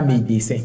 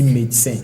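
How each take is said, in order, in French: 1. Le e du milieu se prononce comme une syllabe pleine. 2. Le e du milieu est muet, ce qui donne deux syllabes. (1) "On ne dit pas médecin" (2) "on dit médecin"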